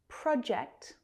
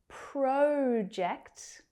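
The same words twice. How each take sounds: First: The first vowel is a short O. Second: The first vowel is a long O. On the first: "with the short O vowel sound in that first syllable" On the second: "like the same vowel sound that's in go"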